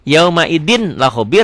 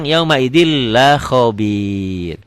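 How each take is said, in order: First: YAUMAIDIN with a clear N before LA; written form with N. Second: Very slow YAUMAIDIL LA KHOBIR, long doubled L; N merged into L. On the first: Teacher showing the spelling, YAUMAIDIN with sounded N. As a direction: sound the final N, then LA KHOBIR. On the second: Teacher showing the reading, YAUMAIDIL with N lost. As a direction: drop the N and hold the L into LA. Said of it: "dibacanya N-nya jadi hilang". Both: Shown as a demonstration.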